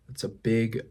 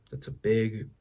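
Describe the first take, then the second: No difference in how they are said.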